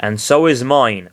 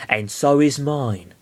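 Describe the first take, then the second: First: Said in the usual way. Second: Slow Mewtwo voice. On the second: Shown as a demonstration. A voice from nowhere answering Lucario, slow. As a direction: drawl it out like a hidden Mewtwo. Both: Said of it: "I imagine it's Mewtwo".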